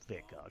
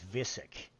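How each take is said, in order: First: The second consonant is a K sound. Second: The second consonant is an S sound. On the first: The speaker calls it right. "the actual game itself pronounces it in a storyline as Vikuk" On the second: The speaker calls it wrong. "somebody had mentioned the other day that it was Visick, and it's not"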